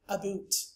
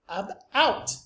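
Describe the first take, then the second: First: The vowel sounds like 'oot', Canadian style. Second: The vowel sounds like 'out', American style. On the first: "in Canadian English it sounds more like aboot" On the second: "sounds like ab-out in standard American English"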